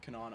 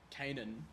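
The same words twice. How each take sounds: First: Canaan said as kuh-NAHN; Canaan as "kə-NAHN", offered as an alternative; alternative pronunciation. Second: Canaan said as KAY-nun; Canaan as "KAY-nən", tentatively rising; first pronunciation attempt. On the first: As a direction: stress the second syllable of Canaan, with a long "ah". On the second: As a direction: stress the first syllable of Canaan, with a long "ay". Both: Shown as a demonstration. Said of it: "I'm not sure how you pronounce".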